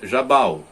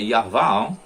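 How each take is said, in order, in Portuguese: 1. O nome é dito na sua forma portuguesa. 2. O nome é dito na sua forma hebraica. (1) "em português" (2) "o nome não é Jabal, em hebraico é Yaval"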